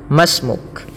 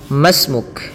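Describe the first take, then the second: First: The 'i' is dropped, linking ma to s. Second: The 'i' is dropped, linking ma to s.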